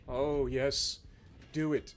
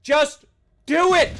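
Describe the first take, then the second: First: Very low, hushed relish; soft, deep egging-on; low gloating. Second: Raised, forceful command; impatient, punchy yell; loud urging. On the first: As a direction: murmur it with quiet menace. Eggs on the opponent, gloating. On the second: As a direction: burst out with the order. Same urging, now shouted. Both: Acted.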